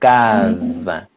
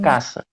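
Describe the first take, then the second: First: The word is said with a Brazilian rhythm. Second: The word is said in a plain, simple way. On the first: The speaker calls it right. "Esse ritmo, que chama ritmo brasileiro" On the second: The speaker calls it wrong. "assim, da forma simples"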